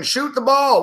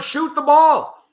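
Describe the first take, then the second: First: Said in the usual way. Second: Slow, high, stretched-out plea; begging the players to shoot; drawn-out plea. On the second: Real, not acted. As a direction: drag every word out. Pleading with team on TV.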